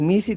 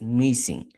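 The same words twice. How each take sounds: First: Said in the usual way. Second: "missing" said as misi plus a closing n; added final n. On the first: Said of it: "en vez de decir misi". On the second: Shown as a demonstration. Teacher showing the possessive, final n added. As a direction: close "missing" on a nasal n sound. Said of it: "dices missing".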